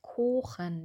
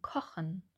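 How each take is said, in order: First: The O vowel is held long. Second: The O vowel is short and quick. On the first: The speaker calls it wrong. "wir sagen nicht kochen" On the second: The speaker calls it right. "wir sagen kochen"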